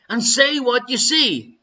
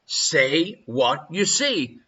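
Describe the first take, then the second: First: Said in the usual way. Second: Catchphrase delivery. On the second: Shown as a demonstration. Quiz host echoing a game show catchphrase, slow and low. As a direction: drop into the telly catchphrase.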